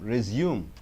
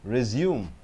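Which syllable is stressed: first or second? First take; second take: second; second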